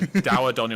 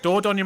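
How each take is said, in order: First: The first syllable sounds like 'dower'. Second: The first syllable sounds like 'door'. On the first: This is the form used on this channel. "So Dowadonny on this channel" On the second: This is the form used on the speaker's own channel. "Dordonny my channel, the correct pronunciation"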